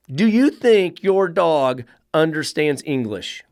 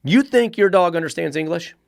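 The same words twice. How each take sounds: First: Slowed, leaning on "you"; slow emphatic repeat. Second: Said in the usual way. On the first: Shown as a demonstration. Trainer repeating the question slowly to owners. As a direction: drag it out to drive the point home.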